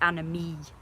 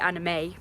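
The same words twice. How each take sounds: First: The word ends with an 'ee' sound. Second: The word ends with an 'ay' sound. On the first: "it's anime. Because it's got an E on the end" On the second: "I know it's supposed to be anime, but that's like a girl's name into Anna May"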